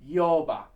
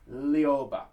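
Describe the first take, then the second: First: The word begins with a Y-like sound. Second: The word begins with a clear L sound. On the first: The speaker calls it right. "virtually no L at all" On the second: The speaker calls it wrong. "we are not going to be pronouncing that Lioba"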